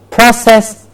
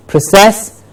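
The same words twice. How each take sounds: First: PROcess, higher front syllable; stress on first syllable. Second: ProCESS, weak first vowel; stress on second syllable. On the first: Teacher contrasting word pairs, front-stressed PROcess. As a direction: say process as the noun, PRO-sess. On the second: Teacher contrasting word pairs, back-stressed proCESS. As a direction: say process as the verb, pruh-SESS. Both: Shown as a demonstration. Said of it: "Do you hear the difference?".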